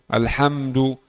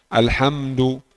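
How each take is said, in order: The two takes are said the same way.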